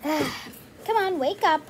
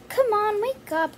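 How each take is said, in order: First: Weary sigh, then a fed-up nudge; tired of asking, say it with a sigh; sighing mom. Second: Put-on brisk mom nudging a sleepy kid awake; mom waking child. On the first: Pretend. Mom doll asks the child again, weary sigh. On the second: Mom doll urges the lazy kid to wake up, brisk nudge. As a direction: come on, get up now, lightly pushy. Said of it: "Don't be that lazy".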